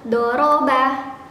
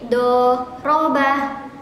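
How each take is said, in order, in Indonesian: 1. Diucapkan cepat dalam satu ketukan utuh. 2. Dipisah dengan jeda setelah suku kata pertama. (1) "langsung doroba" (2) "sambil pikir"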